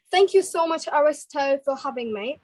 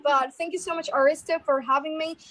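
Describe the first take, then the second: First: British-accented thanks; British English, addressed to hosts. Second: American-accented thanks; American English, addressed to hosts. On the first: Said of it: "starting with the British accent first". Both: Shown as a demonstration.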